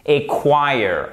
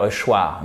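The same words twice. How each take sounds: First: "choir" said KWIRE, falling at the end; correct English pronunciation. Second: "choir" said "shwar" as in French; French-style misreading. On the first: Teacher corrects the French misreading, English pronunciation of "choir". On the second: A good francophone misreads the word, French pronunciation of "choir". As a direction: turn "choir" into French "chwar". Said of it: "moi en bon francophone". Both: Shown as a demonstration.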